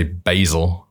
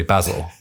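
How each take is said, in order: First: "basil" the American way, first vowel as in "bay"; American pronunciation. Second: "basil" the British way, short a as in "jazz"; British pronunciation. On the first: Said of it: "they'd say basil". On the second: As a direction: say "basil" as BAZ-ul. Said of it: "we'd say basil". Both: Shown as a demonstration.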